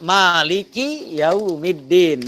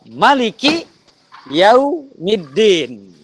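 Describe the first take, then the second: First: The first vowel of Maliki is drawn out long. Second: The first vowel of Maliki is kept short. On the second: "kemudian ada"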